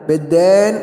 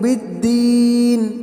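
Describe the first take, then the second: First: The long vowel is the mixed majhul, 'ay'-like vowel. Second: The long vowel is a pure, clear 'ee' vowel. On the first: The speaker calls it wrong. "मजहूल पढ़ते हैं, यह गलत है" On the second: The speaker calls it right. "हम उसको दुरुस्त करेंगे"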